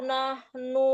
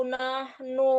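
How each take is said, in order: No difference in how they are said.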